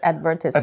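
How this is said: It is said the British way. "some British people pronounce it as advertisement"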